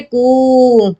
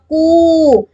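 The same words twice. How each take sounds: First: कु with the u stretched to three beats, very slow; कु held long as in calling someone; prolonged pluta vowel. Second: कु with the u drawn out to two beats, slow; कु held for two measures; long vowel demo. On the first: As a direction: drag out कु like a three-measure pluta. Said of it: "तीन मात्रा वाला के उच्चारण में जितना समय लगता है". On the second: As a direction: stretch कु to a long dīrgha u. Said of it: "अब मात्रा दीर्घ हो गई है". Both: Shown as a demonstration.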